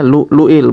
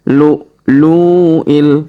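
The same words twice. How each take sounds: First: The vowel is short, one beat long. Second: The vowel is stretched out long. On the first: The speaker calls it right. "dibaca lu lu'il" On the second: The speaker calls it wrong. "bukan lu lu'il ya, jangan dipanjangkan seperti itu"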